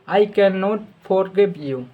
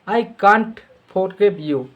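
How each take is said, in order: First: The negative is said as two full words. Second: The negative is contracted into one short syllable. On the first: "कैन नॉट" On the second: "कांट"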